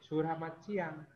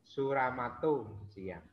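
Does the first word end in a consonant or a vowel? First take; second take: consonant; vowel. First: The first word ends sharply on the t sound. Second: The first word ends with an added u vowel.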